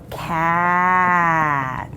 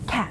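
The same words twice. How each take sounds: First: The word is stretched out slowly, sound by sound. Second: The word is said quickly as one whole.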